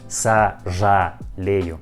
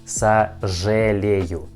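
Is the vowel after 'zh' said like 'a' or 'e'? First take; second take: a; e. First: The vowel after 'zh' sounds like a full 'a'. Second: The vowel after 'zh' sounds like 'e'. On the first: The speaker calls it wrong. "not сожалею. It isn't correctly" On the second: The speaker calls it right. "We pronounce like сожалею"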